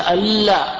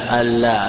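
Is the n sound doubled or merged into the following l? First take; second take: doubled; merged. First: The n sound is doubled before the l. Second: The n sound merges into the following l. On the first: The speaker calls it wrong. "قل هذا غلط. لأنك شددت" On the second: The speaker calls it right. "أضغمت النون في اللام"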